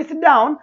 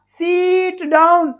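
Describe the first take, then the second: First: सिट down with a short, quick i; quick "sit down", no stretch on सिट; said quickly. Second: सीट down stretched slowly, "seeeet down"; slow, exaggerated long vowel in सीट; drawn-out vowels. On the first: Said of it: "हमने जल्दी बोल दिया". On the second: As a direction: hold the ee of सीट much too long. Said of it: "हम बोले सिट down तो हमने जल्दी बोल दिया". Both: Shown as a demonstration.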